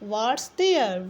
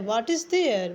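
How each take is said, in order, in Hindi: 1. 'is' छोटा होकर 'what's' बन जाता है। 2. 'is' अलग से एक पूरे शब्द की तरह बोला जाता है।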